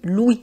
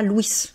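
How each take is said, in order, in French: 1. Une lettre du nom est muette. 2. Chaque lettre du nom est prononcée. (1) "on dit Louis" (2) "on ne dit pas Louis"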